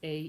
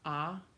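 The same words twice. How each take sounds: First: The vowel has its English letter-name sound. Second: The vowel has its Italian vowel sound. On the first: "the same five vowels that English does" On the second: "In Italian"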